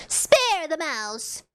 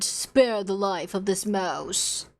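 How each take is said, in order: First: Said in the usual way. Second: Solemn plea. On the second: Shown as a demonstration.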